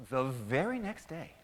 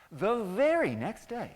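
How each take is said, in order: First: Said in the usual way. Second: VERY swooping up high, loud and drawn out; slow, loud, high storyteller emphasis on "very"; dramatic repeat. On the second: A narrator's reading. Repeated dramatically for scene change.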